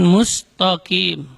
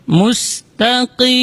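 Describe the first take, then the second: First: "mustaqim" slowly as "mustokim"; "mustaqim" broken slowly into "mus-to-kim"; thickened ta mistake. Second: "Mustaqim" slowly chanted, light ta, back-of-tongue q; "Mustaqim" as "mus-ta-qiim"; thin ta, deep qaf. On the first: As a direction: say "mustaqim" wrongly, with heavy "to". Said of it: "Bukan mustaqim". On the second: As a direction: hold "Mustaqim" with clear "ta" and uvular q. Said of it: "huruf qaf dibaca dari aksal". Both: Shown as a demonstration.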